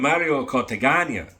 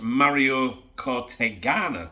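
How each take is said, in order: First: The name is said with a Spanish accent. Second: The name is said with an English accent.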